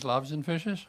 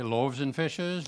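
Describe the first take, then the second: First: Loaves and fishes? lifted into a rising question; checking question. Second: Loaves and fishes said slowly, falling flat at the end; slow telling of the title. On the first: Reader checking the audience caught the title, rising question. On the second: Reader announcing his story title to the audience, slow and firm. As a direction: state Loaves and fishes firmly, slow and settled. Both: Shown as a demonstration. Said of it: "You got that, eh?".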